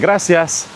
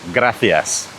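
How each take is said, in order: First: The c is said with an s sound. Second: The c is said with a th sound. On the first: This is how it is said outside Spain. "rather than saying gracias" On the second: This is how it is said in Spain. "they will tell you gracias"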